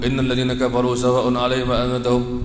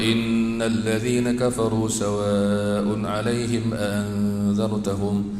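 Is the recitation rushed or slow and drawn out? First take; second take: rushed; slow. First: It is rushed, with long sounds cut short. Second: It is slow, with long sounds fully held. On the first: The speaker calls it wrong. "Kita mudah ya ... Tak boleh macam tu" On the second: The speaker calls it right. "Baca dia elok ... Baca bagi cukuplah"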